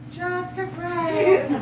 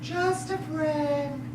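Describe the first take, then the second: First: Slow, careful re-enactment; JUST A FRIEND stretched out, fuller voice; imitating the caller. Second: Slow, soft quote of a caller; JUST A FRIEND drawn out quietly; hushed, measured mimicry; imitating the caller. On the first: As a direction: demonstrate exactly how the caller said it. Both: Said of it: "How did she say it?".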